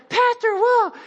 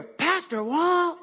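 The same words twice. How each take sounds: First: Much higher and louder, thrilled; excited shout. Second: Higher, drawn-out call with a laugh. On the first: Fan recognizing pastor on trail, excited high shout. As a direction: yelp his name, starstruck. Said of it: "they're like". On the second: Stranger on trail calling after the pastor, drawn-out. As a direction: call his name from behind on the trail. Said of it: "I hear". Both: Retold or imitated.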